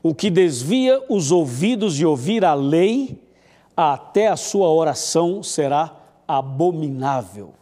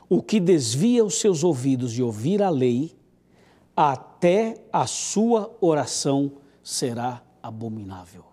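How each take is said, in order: First: It is spoken at normal loudness. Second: It is spoken softly, almost quietly.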